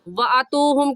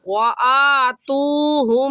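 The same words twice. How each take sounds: First: The first vowel of atuhum is short, not stretched. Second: The first vowel of atuhum is stretched long. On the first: The speaker calls it wrong. "कहना गलत है" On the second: The speaker calls it right. "सही है"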